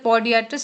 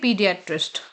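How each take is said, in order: First: The first syllable has an 'oh' vowel. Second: The first syllable has an 'ee' vowel. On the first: The speaker calls it wrong. "इसे पॉडियाट्रिस्ट नहीं पढ़ेंगे" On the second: The speaker calls it right. "क्या पढ़ेंगे? पीडियाट्रिस्ट"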